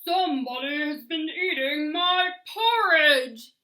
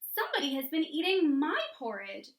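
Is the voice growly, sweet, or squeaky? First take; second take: growly; sweet. First: It is said in a loud, growly voice. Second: It is said in a sweet, low voice.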